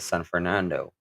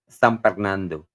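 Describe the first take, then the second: First: It is said with the standard pronunciation. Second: It is said with a Kapampangan accent. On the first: "it's actually pronounced as" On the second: "my kind speak funny"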